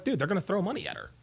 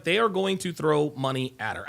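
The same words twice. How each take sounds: First: Rattled off fast and casual; quick throwaway. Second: Every word spelled out slowly, stress on "are"; slow emphatic. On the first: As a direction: toss it off quickly, like it's obvious. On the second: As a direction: lean on "are", "They are going to" deliberate. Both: Retold or imitated. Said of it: "I was like".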